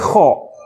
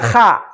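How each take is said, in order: First: The vowel is a rounded, 'o'-like sound. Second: The vowel is an open, unrounded 'a'. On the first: The speaker calls it right. "tetapi kho" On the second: The speaker calls it wrong. "Tidak dibaca kha"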